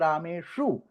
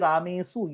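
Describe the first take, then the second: First: The middle consonant is an sh sound. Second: The middle consonant is a plain s sound. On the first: The speaker calls it right. "you say rameshu" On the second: The speaker calls it wrong. "you don't say ramesu"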